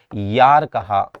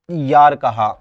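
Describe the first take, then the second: First: "यार" stretched out very slowly and a bit louder; teacher dictating "यार" word by word; slow drawn-out yaar. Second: Said in the usual way. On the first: Shown as a demonstration.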